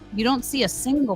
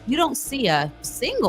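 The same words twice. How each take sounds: First: The word single gets no special emphasis. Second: The word single gets strong emphasis.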